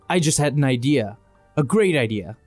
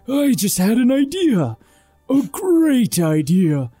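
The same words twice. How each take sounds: First: It is said in an ordinary voice. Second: It is said in a booming voice.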